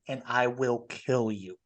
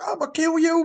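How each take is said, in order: First: It is said in a dead calm voice. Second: It is yelled as an angry threat.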